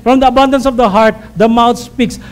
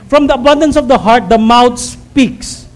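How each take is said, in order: First: Quicker recital. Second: Slow quote. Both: Shown as a demonstration. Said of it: "No, naman po natin".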